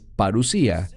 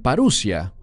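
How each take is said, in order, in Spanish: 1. El acento cae en la tercera sílaba. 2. El acento cae en la segunda sílaba. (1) "pero es parusía" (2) "Algunos la pronuncian parusia"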